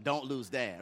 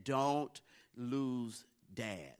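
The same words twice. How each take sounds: First: Said in the usual way. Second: Very slow, each word set apart; grave imitated warning. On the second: Brothers warning scared Cameron, slow and ominous. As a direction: draw out a mock-dire warning, word by word.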